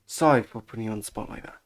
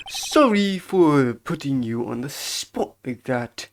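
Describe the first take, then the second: First: Said in the usual way. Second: Deliberate, drawn-out character apology. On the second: Acted. Apologizing for putting someone on the spot, measured bellboy voice. First take, in character, then redone.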